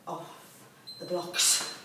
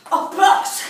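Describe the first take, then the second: First: Breathy whispered off the blocks; whispered cue. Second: Higher, louder call to go; loud start call. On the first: Coach whispering the start cue to the class, hushed. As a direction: murmur the start cue under your breath. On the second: Coach calling the class off the blocks, loud and bright. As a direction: call it out to launch them. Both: Real, not acted.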